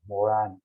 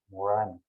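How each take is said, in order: First: The last vowel is a French nasal vowel. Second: The same.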